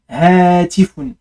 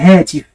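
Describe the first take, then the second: First: The word ends with a final -un syllable. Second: The word ends without the final -un syllable. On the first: This is the full written-style form. "ils prennent toujours le un à la fin" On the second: This is the everyday spoken form. "en général on ne prononce pas hein, le un, on dit hatif"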